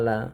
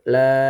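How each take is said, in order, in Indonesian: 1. L-nya ringan, seperti L dalam bahasa Indonesia. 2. L-nya tegas, lidah menekan langit-langit. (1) "diucapkan terlalu ringan seperti huruf lam dalam huruf alfabet bahasa Indonesia" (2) "ujung lidah bagian bawah dikit menempel langit-langit mulut"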